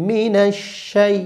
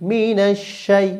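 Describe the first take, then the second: No difference in how they are said.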